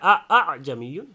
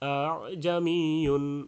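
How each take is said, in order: First: Both hamzas are pronounced with a full, hard stop. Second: The first hamza is hard, the second soft. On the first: The speaker calls it wrong. "দুইটাই শক্ত হলো" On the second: The speaker calls it right. "প্রথমটা শক্ত দ্বিতীয়টা নরম হবে"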